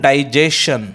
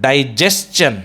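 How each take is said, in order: First: The ending is said with a plain 'shun' sound. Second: The ending is said with a 'chun' sound. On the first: The speaker calls it wrong. "So it is not a digestion" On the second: The speaker calls it right. "it is digestion"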